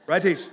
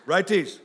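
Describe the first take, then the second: No difference in how they are said.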